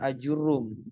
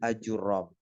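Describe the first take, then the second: First: The vowel after the r is a 'u'. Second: The vowel after the r is an 'a'. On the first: This form is used by many commentators. "bidomir ra" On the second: This is the most eloquent form. "Bifathir ra. Dengan difathahkan ra-nya"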